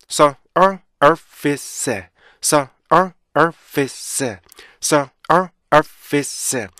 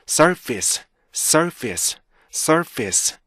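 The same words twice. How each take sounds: First: Surface in five separate pieces. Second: Surface joined, small beats kept; 올바른 발음. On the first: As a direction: sound out surface beat by beat. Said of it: "다섯 개로 다시 한번 나눌까요". (다섯 박으로 끊은 surface) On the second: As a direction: say surface as one unhurried word. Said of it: "이렇게 읽어주시면". (리듬 살려 이은 surface) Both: Shown as a demonstration.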